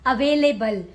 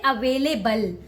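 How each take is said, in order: The two takes are said the same way.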